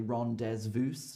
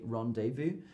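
First: The z and s sounds are pronounced. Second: The z and s sounds are silent. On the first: The speaker calls it wrong. "we don't say rendezvous" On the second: The speaker calls it right. "they don't say the Z and they don't say the S"

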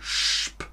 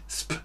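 First: The s is a hushing sh sound. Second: The s is a sharp hissing s sound. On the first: The speaker calls it right. "sondern sp" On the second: The speaker calls it wrong. "Nicht sp"

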